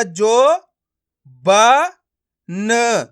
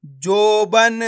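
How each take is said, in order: First: जो, ब, न each sounded alone; syllable by syllable. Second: जोबन joined as one stretched word; blended word. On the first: Teacher breaking a word up for learners, syllable by syllable. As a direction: leave gaps between जो, ब and न. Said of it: "एक एक अक्षर का उच्चारण करके". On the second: Teacher showing learners the joined result, blended word. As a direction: run जो, ब, न together as जोबन. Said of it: "तो मिलके बन जाएगा". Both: Shown as a demonstration.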